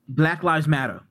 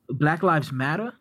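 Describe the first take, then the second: First: It is said as a plain statement. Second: It is said as a rising question.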